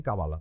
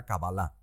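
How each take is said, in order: First: "Kabbalah" stressed before the last syllable, ka-BA-la; alternative pronunciation. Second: "Kabbalah" with final stress, ka-ba-LA; original Hebrew pronunciation. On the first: Host allowing the other form, "Kabbalah" as ka-BA-la. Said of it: "Pero está bien Kabbalah también". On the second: Host stating preferred Hebrew form, "Kabbalah" as ka-ba-LA. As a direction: land on LA in "Kabbalah". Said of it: "como se pronuncia en el hebreo original". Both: Shown as a demonstration.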